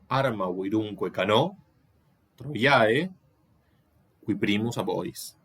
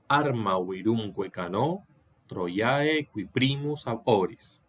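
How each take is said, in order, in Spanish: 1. Hay pausas después de cano y después de troiae. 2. Continúa sin pausa después de troiae. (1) "Si uno lee con estas cesuras" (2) "Yo leo"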